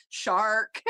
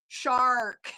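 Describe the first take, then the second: First: Imitating the Welsh way, "Shark." with no R and a rising end; "Shark." in a light Welsh accent, a little louder, ending up. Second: Imitating the lawyer's put-on American accent, "Shark." with a hard American R, laughing through it; "Shark." said with a flat American R and a laugh. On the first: Showing how the Welsh lawyer says it in court, mock Welsh accent. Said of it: "the way that the Welsh say it". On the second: Mimicking the Welsh lawyer switching to an American accent for the court, laughing. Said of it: "he used his American accent".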